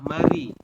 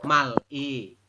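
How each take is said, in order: First: The consonant links to the vowel as R. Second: The consonant stays separate and sounds like L. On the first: The speaker calls it right. "Tetapi Anda membacanya adalah mari" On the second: The speaker calls it wrong. "Karena realnya di akhir kan bunyinya L"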